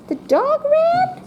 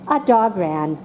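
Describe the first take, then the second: First: It is said as a question. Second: It is said as a plain statement.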